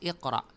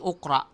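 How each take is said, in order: First: The word begins with an i vowel. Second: The word begins with an u vowel. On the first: The speaker calls it right. "Pagkus iqra" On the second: The speaker calls it wrong. "hindi ukra"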